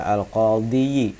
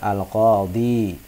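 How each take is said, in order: First: The word ends with an added 'yi' syllable. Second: The word ends on a plain long 'i'. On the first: The speaker calls it wrong. "tidak perlu dibaca al-qadhiyi karena dianggap berat" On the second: The speaker calls it right. "Cukup dibaca al-qadhi"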